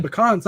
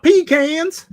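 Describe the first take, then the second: First: Said in the usual way. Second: Pecans as PEE-cans, high, loud and drawn out; exaggerated PEE-cans pronunciation. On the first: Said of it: "not pecans". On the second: Shown as a demonstration. Teasing a friend about the word, pecans said as loud PEE-cans. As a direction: hit pecans hard as PEE-cans, slowly. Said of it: "you said pecans, not".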